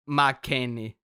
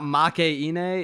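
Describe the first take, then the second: First: The middle vowels are merged into one syllable. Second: The middle vowels are split into two syllables. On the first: The speaker calls it right. "you have to say like K, K as one syllable" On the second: The speaker calls it wrong. "so it's not Makaine"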